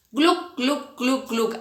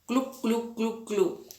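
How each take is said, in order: First: Gluc gluc de tragos imitados; tragando agua. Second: Gluc gluc bajito de tragos; tragando agua, más suave. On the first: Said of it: "imagínense cuando toman agua así". (sonido de tragar agua) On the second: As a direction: imita beber a tragos suave. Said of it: "¿cómo hacemos nosotros?". (sonido de tragar suave) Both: Shown as a demonstration.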